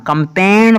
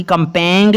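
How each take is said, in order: First: कंपेन, ending on a plain N; silent G. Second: कंपेंग, ending in a "ng" with the G heard; wrongly voiced G. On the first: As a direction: leave the G out of कंपेन. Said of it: "कंपेन पढ़ना है". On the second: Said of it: "कंपेंग नहीं इसको पढ़ना". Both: Shown as a demonstration.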